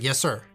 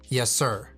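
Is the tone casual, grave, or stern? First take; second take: casual; stern. First: It sounds casual, like routine replying. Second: It sounds firm and stern.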